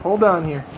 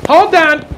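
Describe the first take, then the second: First: Said in the usual way. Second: Put-on "Hold on!" in a Chicago accent, much higher and louder; mock Chicago accent, hammed up and loud. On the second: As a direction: belt it out like a Chicago local. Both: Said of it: "That's my Chicago voice".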